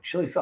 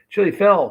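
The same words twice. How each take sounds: First: Said in the usual way. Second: "Chili Phil" said again higher and louder, each syllable clear; clear retry. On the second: Real, not acted. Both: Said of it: "I can't even talk".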